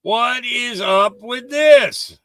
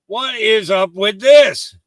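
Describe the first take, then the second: First: Very slow, drawn-out incredulous. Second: Slow, incredulous. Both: Shown as a demonstration. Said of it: "repeat with other take".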